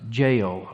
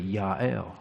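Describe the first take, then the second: First: The name begins with a j sound. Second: The name begins with a y sound. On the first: This is the form commonly heard in English. The speaker calls it wrong. "you probably heard pronounced Jael all the time" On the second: This is how the name sounds in Hebrew. The speaker calls it right. "it's actually Yael. All the J's usually have the Y sound"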